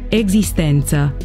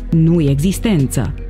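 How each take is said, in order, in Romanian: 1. Cuvântul începe cu un sunet „e” simplu. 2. Cuvântul începe cu un sunet „ye”. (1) "Se citește E curat"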